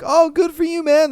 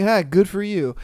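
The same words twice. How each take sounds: First: Higher, bright genuine praise; mean it fully; sincere praise. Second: Flat dismissive good for you; sarcastic. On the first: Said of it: "People don't really be like". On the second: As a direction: throw it away, unimpressed. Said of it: "They're just like". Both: Retold or imitated.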